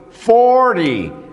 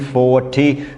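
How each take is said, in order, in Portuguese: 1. O T é suavizado, o R se liga ao Y. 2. O som do T é pronunciado claramente. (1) "eu emendo o R no Y" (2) "Eles pronunciam todos esses T's"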